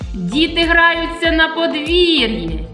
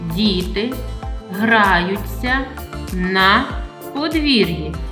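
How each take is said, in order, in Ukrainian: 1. Це сказано з піднятою, окличною інтонацією. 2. Це сказано спокійною, рівною інтонацією твердження.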